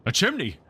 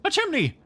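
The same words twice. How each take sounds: First: Surprised pirate exclamation; exclaiming. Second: Much higher second exclamation; second pirate's high echo; high surprised exclamation. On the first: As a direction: blurt it out in discovery. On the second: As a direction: squeal it in a higher voice. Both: A narrator's reading. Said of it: "they both exclaimed".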